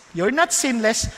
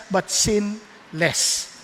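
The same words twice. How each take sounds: First: Said in the usual way. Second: "sin less" split into two words, slow, with a gap before "less"; stress on sin less. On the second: Shown as a demonstration. Preacher contrasting sinless with "sin less", slow and separated.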